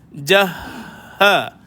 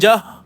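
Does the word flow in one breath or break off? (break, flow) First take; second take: flow; break. First: The word flows smoothly in one unbroken breath. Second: The breath cuts off abruptly partway through. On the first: The speaker calls it right. "jangan sampai terputus nafas" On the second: The speaker calls it wrong. "terputus nafas, lepas tu sambung balik"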